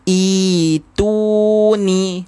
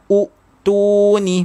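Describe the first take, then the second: First: The word begins with a long 'ee' vowel. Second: The word begins with an 'oo' vowel. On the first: The speaker calls it right. "dibaca dengan itu ni" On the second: The speaker calls it wrong. "bukannya u tu ni"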